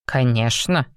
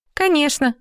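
First: Said in the usual way. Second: High, dismissive snort of a yes. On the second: Acted. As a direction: scoff it out, high pitched. (фыркая) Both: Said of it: "фыркнула девушка".

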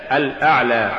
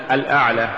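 First: Said in the usual way. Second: "الأعلى" ending in a breathy h; final alif becomes ha. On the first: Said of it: "استبدال الألف بالهاء". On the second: Shown as a demonstration. Teacher showing an error, "الأعلى" ended on ha for alif. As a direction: close "الأعلى" on h instead of long a. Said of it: "تقرأ لحنا".

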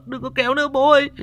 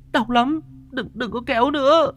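First: Fast, high, sobbing plea to her father; crying, rushed plea. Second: High, wailing plea through sobs; crying in pain. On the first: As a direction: blurt it out faster through tears. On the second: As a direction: beg through tears, hurting. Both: A narrator's reading. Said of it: "nó vừa khóc vừa mếu máo".

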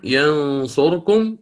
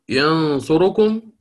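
First: ينصركم read slowly with the ra held silent. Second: ينصركم read slowly with a quick snatched vowel on the ra. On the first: Teacher reciting the first way, with a silent ra. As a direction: say ينصركم with no vowel on the ra. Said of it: "الأولى بالإسكان". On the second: Teacher reciting the second way, with a snatched vowel. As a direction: say ينصركم and just touch the ra vowel. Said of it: "بالاختلاس". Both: Shown as a demonstration.

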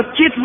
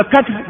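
First: كتف as kitf; vowel moved forward. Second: كتف as katf; middle vowel dropped. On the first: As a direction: say كتف in one syllable with i. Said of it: "بنقل حركة العين". (كتف بكسر الكاف وتسكين التاء) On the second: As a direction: say كتف in one syllable with a. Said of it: "بالتسكين". (كتف بفتح الكاف وتسكين التاء) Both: Shown as a demonstration.

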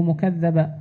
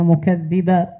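First: مكذبا as "mukadhdhaban", a after dh; second vowel variant. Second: مكذبا as "mukadhdhiban", i after dh; first vowel variant. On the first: Student reading both variants to teacher, مكذبا as "mukadhdhaban". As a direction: read مكذبا with a on doubled dh. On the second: Student reading both variants to teacher, مكذبا as "mukadhdhiban". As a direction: read مكذبا with i on doubled dh. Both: Real, not acted. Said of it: "الاثنين".

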